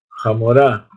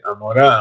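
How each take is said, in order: First: The word begins with a harsh throaty J sound. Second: The word begins with a vowel, the H silent. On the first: The speaker calls it wrong. "ellos decían Jamorá" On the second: The speaker calls it right. "le dice Amorá"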